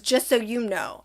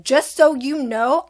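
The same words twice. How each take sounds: First: Said in the usual way. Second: Louder, slower, each word laid down; a slow, pointed warning; firm warning. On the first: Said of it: "she goes". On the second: Retold or imitated. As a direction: tell her straight so she hears it. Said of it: "But I was like".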